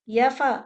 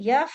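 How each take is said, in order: First: The f sound is followed by a vowel. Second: The f sound ends with no vowel. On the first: The speaker calls it wrong. "यफा नहीं है" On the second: The speaker calls it right. "फा का कलकला नहीं है इसमें"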